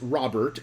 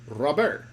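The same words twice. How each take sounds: First: The R is plain and the final T is pronounced. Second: The R is rolled and the final T is silent. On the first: "as we would say it here" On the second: "he rolls the R. ... That's how you actually say it"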